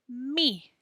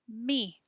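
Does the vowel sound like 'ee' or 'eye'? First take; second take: ee; ee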